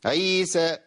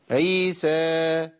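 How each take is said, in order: First: "عيسى" with the final alif chopped by a glottal stop; مد مقطوع. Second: "عيسى" drawn long, final alif fading out freely; مد ينقطع لوحده. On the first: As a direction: cut the last vowel of "عيسى" off on a hamza. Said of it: "ما ينفعش". ("عيسى" بهمزة زائدة تقطع المد) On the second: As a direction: let the last vowel of "عيسى" die away by itself. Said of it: "لازم أخلي الصوت ينقطع لوحده". ("عيسى" بمد ينتهي في الهواء دون همزة) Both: Shown as a demonstration.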